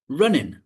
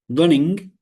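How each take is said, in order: First: The word ends with a plain 'n' sound. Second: The word ends with a full 'ng' sound. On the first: "So the g kind of disappears" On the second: "the ng is replaced with ng"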